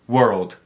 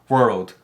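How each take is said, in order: Both takes have the same delivery.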